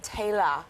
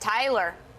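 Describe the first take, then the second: First: The name is said with a British accent. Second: The name is said with an American accent. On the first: This is how people in Britain say it. "they all pronounce my name Taylor here" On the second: This is how she usually hears it at home. "I'm used to hearing it Tyler"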